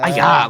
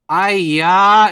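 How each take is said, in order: First: The word is short and sharp. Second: The word is long and drawn out. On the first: Sudden pain, like being burned. "like a sharp one" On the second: Strong exasperation at someone's behavior. "A really prolonged aya"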